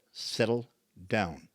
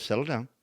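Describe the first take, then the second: First: "Settle down" drawn out slowly, word by word; slow, deliberate command. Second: Said in the usual way. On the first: Retold or imitated. Therapist to frustrated patient, "Settle down" slow and deliberate. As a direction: spell it out calmly: "Settle ... down".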